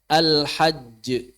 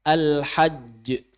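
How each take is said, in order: Both takes have the same delivery.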